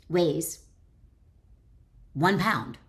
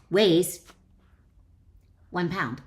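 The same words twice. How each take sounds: The two takes are said the same way.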